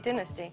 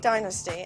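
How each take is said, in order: First: It is said the British way. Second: It is said the American way.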